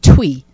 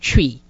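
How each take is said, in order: First: The word begins with a 'tw' sound. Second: The word begins with a 'ch' sound. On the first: The speaker calls it wrong. "You probably would pronounce it Twi" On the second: The speaker calls it right. "but it's called Chi"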